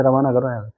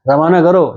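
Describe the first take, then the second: First: A soft, quieter brush-off, as if waving someone away; quietly imitating a fed-up host; mock dismissive send-off. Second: Said in the usual way. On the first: Annoyed host quietly says send him away, softly dismissive. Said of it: "सामने वाला कहेगा". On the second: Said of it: "ये word आ सकते हैं".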